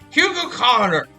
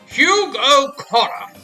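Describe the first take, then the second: First: The name is said fast. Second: The name is said at normal speed.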